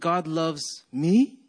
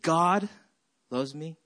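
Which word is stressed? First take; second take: me; God. First: The stress is on me. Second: The stress is on God.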